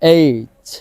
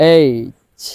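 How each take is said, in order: Both takes have the same delivery.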